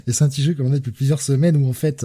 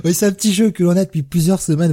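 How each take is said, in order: First: Said in the usual way. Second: Barely keeping a straight face; trying not to laugh. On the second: Real, not acted. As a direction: laugh still in the voice. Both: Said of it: "j'essaie de garder mon sérieux".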